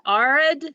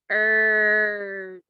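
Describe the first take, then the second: First: The vowel sounds like the one in 'car'. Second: The vowel sounds like the one in 'her'. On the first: The speaker calls it wrong. "is that a word? No, that's not a word. That doesn't sound right" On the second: The speaker calls it right. "maybe I do the E R together"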